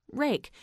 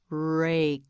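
First: Said in the usual way. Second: "Rake" drawn out, with a detached final k; sounded-out word. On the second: Shown as a demonstration. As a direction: stretch "Rake" and release the k separately. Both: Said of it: "You try it".

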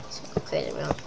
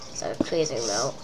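First: Whispered aside, no voice; whispering. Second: Said in the usual way. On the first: Real, not acted. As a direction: breathe it out as a whisper. Repeats line, then whispers it.

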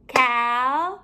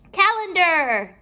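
First: CALENDAR in three long, separate syllables; a beat on each syllable of CALENDAR; clapped-out syllables. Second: Said in the usual way. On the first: Shown as a demonstration. Teacher clapping out syllables for pupils, one beat at a time. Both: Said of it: "We're going to clap out the syllables".

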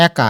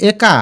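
First: একা with open æ, "æka"; correct open vowel. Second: একা with closed e, "eka"; wrong first vowel. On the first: Teacher answers the question for students, একা with open æ. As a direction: start একা on a wide æ. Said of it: "এটার উচ্চারণ একা". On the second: Teacher asks students if this is right, একা with closed e. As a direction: narrow e at the start of একা. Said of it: "না, এটার উচ্চারণ একা". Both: Shown as a demonstration.

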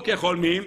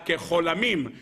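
First: "כחולמים" said kecholmim, no vowel after the l; usual reading, kecholmim. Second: "כחולמים" said kecholamim, with an added a; "כחולמים" sounded like the vowel name cholam, ke-cho-la-MIM; altered reading, kecholamim. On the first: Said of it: "אלא כחולמים". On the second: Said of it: "לא כחולמים, אלא כחולמים". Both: Shown as a demonstration.

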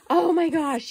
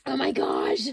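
First: Oh my gosh rising loud and high with awe; louder excited gasp of delight. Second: Said in the usual way. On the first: Real, not acted. Opening a gift, she bursts out in excitement.

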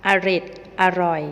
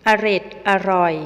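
First: อร็ดอร่อย sounded as อะ-หร็ด-อะ-หร่อย, with the added อะ syllables; reading pronunciation. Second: อร็ดอร่อย read out as the written headword, loud; word as written. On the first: Teacher giving students the spoken reading of the word. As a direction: read อร็ดอร่อย with a short อะ before each part. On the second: Teacher showing students the written form, loud and clear. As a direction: say อร็ดอร่อย first as the spelled word before its reading. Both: Shown as a demonstration. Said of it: "อ่านว่า".

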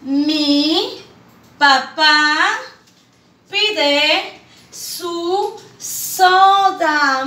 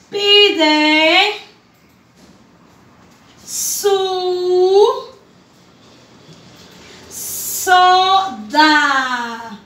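First: "Mi papá pide su soda" read slowly as one phrase; whole sentence joined, slow and clear; smooth reading. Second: Each word read alone with long pauses; "Pide" "su" "soda" spaced out for children; syllable by syllable. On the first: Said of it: "qué dice". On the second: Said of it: "La primera oración dice". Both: Shown as a demonstration.

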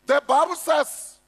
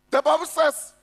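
No difference in how they are said.

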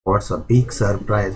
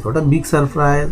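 First: Said in the usual way. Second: Higher, slow exclaimed surprise; surprised. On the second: Shown as a demonstration. Teacher voicing the girl's surprise in a lesson, slow and exclaimed. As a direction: read it as a slow, rising exclamation. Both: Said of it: "आश्चर्यचकित झालेले आहे".

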